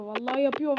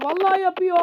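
First: Said in the usual way. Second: Higher, louder panicked repeat; panicking as the striker gets through; alarmed cry. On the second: Real, not acted. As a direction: cry it out as the goal comes. Panic rising.

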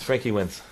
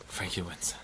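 First: Said in the usual way. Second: Hushed whisper of disbelief. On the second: Real, not acted. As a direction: breathe it out, barely voiced. Repeats the result twice.

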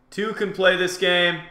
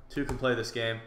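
First: Higher, louder challenge; raised taunt. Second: Said in the usual way. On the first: Real, not acted. Player firing back at an opponent, loud taunt. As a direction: throw the challenge back, voice lifted.

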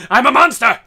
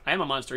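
First: Much louder, higher mock battle cry; roaring boast. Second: Said in the usual way. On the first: Gamer hyping himself up in battle, roaring boast. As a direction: bellow it like a rampaging monster. Hyped-up boast while playing the game.

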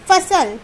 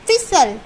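First: फसल said as fasal; फसल, plain fa; without the i sound. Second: फिसल said as fisal; फि in फिसल clearly; with short i. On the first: (फसल बिना मात्रा के) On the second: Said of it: "फा पे छोटी की मात्रा फी". (फिसल छोटी ई के साथ) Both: Shown as a demonstration.

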